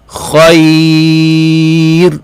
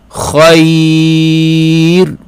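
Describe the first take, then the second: The two takes are said the same way.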